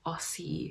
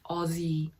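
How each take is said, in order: First: The middle consonant is an s sound. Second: The middle consonant is a z sound. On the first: This marks the speaker as a non-Australian. The speaker calls it wrong. "not Aussie" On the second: This is how Australians say it. The speaker calls it right. "It's with the Z sound"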